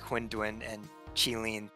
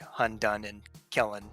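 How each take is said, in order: First: The names are said closer to Chinese. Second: The names are said with English sounds. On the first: The speaker calls it right. "it's definitely more like" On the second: The speaker calls it wrong. "than like"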